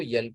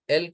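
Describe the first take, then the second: First: یل with a y-glide in front; altered pronunciation. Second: ایل with an open vowel onset; standard pronunciation. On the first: Teacher contrasting readings for students, یل with added y. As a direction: start یل on a y sound. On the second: Teacher contrasting readings for students, standard ایل. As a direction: say ایل starting straight on the vowel. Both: Shown as a demonstration. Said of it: "ایل کو ایل پڑھیں یا ایل کو یل پڑھیں".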